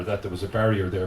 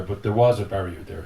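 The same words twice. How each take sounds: First: Said in the usual way. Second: "was" stressed in contrast. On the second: Real, not acted. Poet admitting the barrier was real, stress on "was". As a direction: lean firmly on the word "was". Corrects himself, stressing that it existed.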